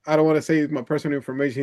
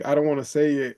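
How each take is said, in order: First: Fast, lightly imitated Indian accent. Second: Said in the usual way. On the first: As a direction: rattle it off in a mock Indian accent. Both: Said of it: "he has a thick Indian accent".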